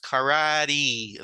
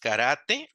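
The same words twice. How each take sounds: First: It is said with English pronunciation, ending in 'ee'. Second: It is said with Spanish pronunciation. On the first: "in English, this is pronounced karate, like in like an e sound at the end" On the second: "In Spanish, it's karate"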